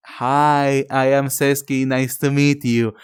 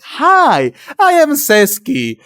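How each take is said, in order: First: Said in the usual way. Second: High, loud, overly eager self-intro; eager nervous hello. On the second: Retold or imitated. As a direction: force the cheer, a beat too bright. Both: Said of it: "and I was just like".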